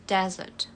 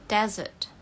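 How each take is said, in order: Both takes have the same delivery.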